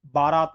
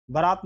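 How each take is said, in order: First: बारात as "baa-raat"; long a. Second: बारात as "baraat"; wrong short a. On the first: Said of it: "बारात होती है". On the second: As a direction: keep the first vowel of बारात short. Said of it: "बारात नहीं होती है". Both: Shown as a demonstration.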